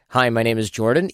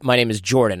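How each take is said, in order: First: The voice rises at the end like a question. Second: The voice falls at the end, sounding confident.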